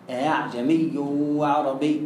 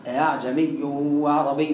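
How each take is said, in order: First: "أعجمي" slow, the hamza eased toward alif; softened hamza. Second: "أعجمي" slow, hamza eased between hamza and alif; softened hamza. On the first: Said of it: "سامع كويس؟". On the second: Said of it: "بس عايزة بالتلقي". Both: Shown as a demonstration.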